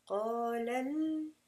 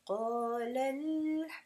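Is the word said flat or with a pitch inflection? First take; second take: inflected; inflected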